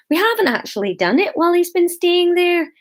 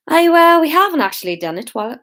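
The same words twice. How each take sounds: First: High, lilting Scottish protest; mild Scottish accent. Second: Attempted Scot slipping into Irish; accidental Irish accent. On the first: A narrator's reading. Hamish defending himself to the meeting, mild Scottish accent. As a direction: offer it mildly in a Scottish lilt. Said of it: "said Hamish mildly". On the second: Shown as a demonstration. Hamish defending himself to the meeting, mistakenly Irish accent. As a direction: start high and loud, then hurry on in Irish. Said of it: "oh no, that was Irish".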